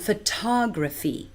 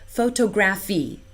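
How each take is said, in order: First: The stress falls where native speakers put it. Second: The stress falls where Singapore English puts it. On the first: The speaker calls it right. "instead of" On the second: The speaker calls it wrong. "I often hear"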